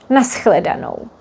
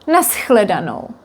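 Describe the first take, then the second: The two takes are said the same way.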